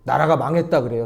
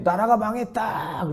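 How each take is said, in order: First: Said in the usual way. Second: Higher, slow mock chant of a marcher; lightly voiced protester lamenting; protesters' cry. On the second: Marchers with flags crying the nation is lost, lightly mocked.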